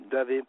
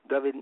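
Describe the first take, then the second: No difference in how they are said.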